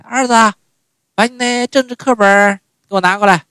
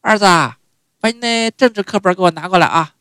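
First: High, loud mom calling for the textbook; mother calling. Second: High, loud mom's call, same as yesterday; mother calling again. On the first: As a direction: call out to her son, stressing 政治. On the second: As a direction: call to her son with a trailing 啊. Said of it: "第二天又一样". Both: Retold or imitated.

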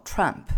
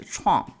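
First: "Trump" said the way the old immigrants say it, as a mock of their mistake; imitated wrong pronunciation. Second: "Trump" said the proper American way, as the correction; correct pronunciation. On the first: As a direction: copy their mispronounced "Trump" lightly. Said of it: "他们管特朗普叫Trump". (模仿老移民错误地念"Trump") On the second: Shown as a demonstration. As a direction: give the right "Trump" clearly, as a model. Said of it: "应该是Trump". (示范正确地念"Trump")

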